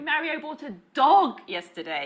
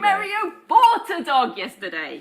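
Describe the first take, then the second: First: The word dog carries the main stress. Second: The word bought carries the main stress. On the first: It was a dog, not a frog. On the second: The dog was bought, not stolen.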